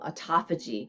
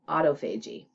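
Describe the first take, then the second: First: The word is said with a standard pronunciation. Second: The word is said with a Canadian pronunciation. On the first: The speaker calls it right. "that's called autophagy" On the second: The speaker calls it wrong. "if you're Canadian like me and you mispronounce some words"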